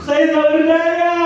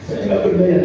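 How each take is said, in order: First: It is said with high, lively energy. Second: It is said with low, downcast energy. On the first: The delivery does not fit the feeling. The speaker calls it wrong. "Nggak pantas Bapak Ibu" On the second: The delivery fits the feeling. The speaker calls it right. "Pasti dia nunduk ke bawah. ... Ekspresi energinya rendah"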